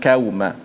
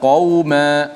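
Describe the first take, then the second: First: The first consonant is thin, almost like k. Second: The first consonant is thick and heavy. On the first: The speaker calls it wrong. "jangan qauma" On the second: The speaker calls it right. "Wa kunna qauma"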